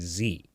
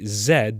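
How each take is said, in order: First: The letter is pronounced as zee. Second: The letter is pronounced as zed. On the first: It suits certain words and circumstances better. "in certain circumstances with certain words, it's more appropriate" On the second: This is how people speak here. "the British way"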